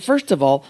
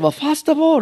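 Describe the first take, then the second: First: Said in the usual way. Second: Much higher, imitated Japanese accent; Mister Miyagi. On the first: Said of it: "So I said". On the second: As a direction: answer as a mock bonsai master. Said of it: "And he said".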